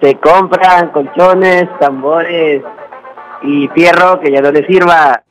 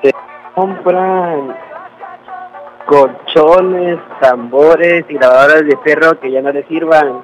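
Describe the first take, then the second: First: It is said loudly, with much energy. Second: It is said sleepily, with little energy.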